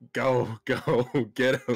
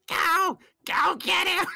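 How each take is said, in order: First: It is said in a lower character voice. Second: It is said in a higher character voice. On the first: "the voice you were using for him" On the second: "but pitched up?"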